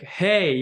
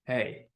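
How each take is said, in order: First: A happy, lifted hey. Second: Low, soft, curt angry hey; a quietly angry hey, pitched down. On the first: English teacher shows how a happy hey sounds, happy. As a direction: greet them like you are happy. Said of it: "we sound happy when we say". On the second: Teacher shows learners an angry hey, angry. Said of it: "when you are angry". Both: Shown as a demonstration.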